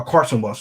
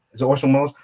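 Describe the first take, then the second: First: "Carson" said with a clear hard C at the start; "Carson Welles" stated firmly, with a falling tone; corrected name. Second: "Orson Welles" said by mistake, with an O and no C sound; "Orson" said plainly, as a question; wrong name. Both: Real, not acted. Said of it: "excuse me, not Orson Welles".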